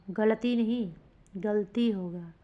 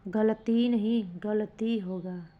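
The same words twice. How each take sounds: The two takes are said the same way.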